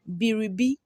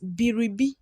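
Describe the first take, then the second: First: The r sound is pronounced in full. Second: The r sound is pronounced in full.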